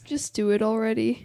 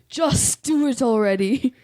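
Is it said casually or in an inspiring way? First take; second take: casually; inspiring. First: It is said plainly, without inspiring weight. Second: It is said grandly, as if inspiring someone.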